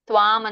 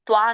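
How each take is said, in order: First: The word ends with a nasal sound. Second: The word ends on a plain long vowel. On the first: The speaker calls it right. "ತ್ವಾಂ ಅಂತ ಹೇಳಿ" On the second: The speaker calls it wrong. "ತ್ವಾ ಅಂತ ಓದ್ಬೇಡಿ ನೋಡಿ"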